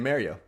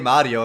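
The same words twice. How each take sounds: First: The name has an English pronunciation. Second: The name has an Italian pronunciation. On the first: The speaker is talking in English. "if I'm speaking English, I'm going to say Mario" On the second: The speaker is talking in Italian. "I would say Mario if I'm speaking Italian"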